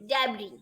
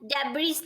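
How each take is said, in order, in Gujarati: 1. અંતે સ્વર છે, s નથી. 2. અંતે સ્પષ્ટ s નો અવાજ સંભળાય છે.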